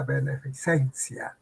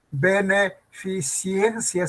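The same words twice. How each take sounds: First: Beneficencia ending in -CEN-cia, no i before the e; correct pronunciation beneficencia. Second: Beneficiencia slowly, ending in -ciencia with an extra i; wrong pronunciation beneficiencia. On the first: Teacher giving the answer, beneficencia with -cencia and no extra i. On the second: Teacher quizzing students, Beneficiencia slowly with an extra i in -ciencia. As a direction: sound out Beneficiencia with CIEN stressed. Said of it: "¿se dice?". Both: Shown as a demonstration.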